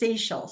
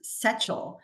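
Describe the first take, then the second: First: "Seychelle" said like the islands, say-SHELL; common mispronunciation. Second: "Sechel" pronounced as the name's owner says it, SETCH-ul; correct name pronunciation. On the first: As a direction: say "Seychelle" with "say" first, then a sh sound. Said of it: "most people think it's". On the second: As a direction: say "Sechel" slowly, first syllable like "setch". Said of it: "it is pronounced". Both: Shown as a demonstration.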